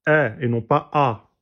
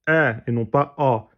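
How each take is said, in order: No difference in how they are said.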